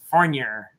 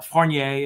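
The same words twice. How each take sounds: First: The name is said the Vermont way. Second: The name is said the French way.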